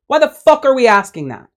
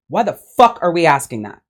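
First: Higher, louder exasperated repeat; exasperated outburst. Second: Said in the usual way. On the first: Real, not acted. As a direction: throw the question back in disbelief.

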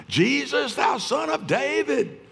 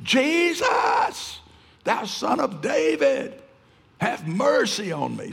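First: High desperate shout to Jesus; shrieking cry. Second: Very high, drawn-out shriek of Jesus; screaming plea. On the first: Blind Bartimaeus calling out to Jesus, high shout. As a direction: cry out high and hard, begging to be heard. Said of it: "He shrieked, he cried, he screamed". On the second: Blind man screaming to Jesus for mercy, very high shriek. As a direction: scream it across the crowd, desperate. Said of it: "he screamed". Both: Retold or imitated.

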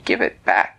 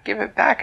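First: Mild mock yell. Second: Put-on higher, whining child's plea; a little boy wailing for his watch; lightly voiced upset child, higher; crying plea. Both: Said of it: "he started crying and yelling".

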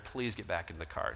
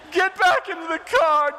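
First: Low, soft, calm request; quiet plea. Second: High, loud, slow, tearful plea; crying child. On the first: Husband softly asking his wife back into the car. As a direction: ask gently after the yelling, much lower and softer. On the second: Son begging mom to return to the car, high slow tearful wail. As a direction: beg her back like a frightened little boy. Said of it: "and he's crying". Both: Retold or imitated.

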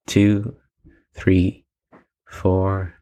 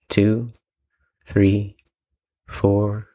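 The two takes are said the same way.

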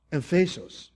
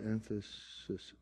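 First: "Emphasos" with a long O in the last syllable; Greek word. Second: "emphasis" ending in an I S sound; everyday English word. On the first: Preacher showing the Greek word beside English, "Emphasos" ending in a long O. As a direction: say "Emphasos" ending A O, stressed in the middle. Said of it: "Emphasos will have A O". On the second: Preacher showing the English word beside the Greek, "emphasis" ending in I S. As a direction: say "emphasis" with a short final syllable. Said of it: "The only difference between emphasis and emphasos". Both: Shown as a demonstration.

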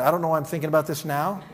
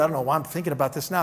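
First: Amused retelling with a laugh; laughing repeat. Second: Said in the usual way. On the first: Retold or imitated. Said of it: "that's always a good sign". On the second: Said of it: "she goes".

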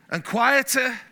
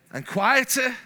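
The two takes are said the same way.

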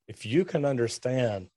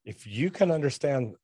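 Both takes have the same delivery.

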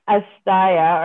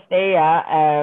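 First: "Asteya" with middle syllable like "sty"; alternative pronunciation. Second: "Steya" with vowel like "stay"; alternative pronunciation. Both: Shown as a demonstration. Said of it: "my pronunciation of things might not be perfect".

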